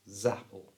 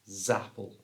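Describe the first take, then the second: No difference in how they are said.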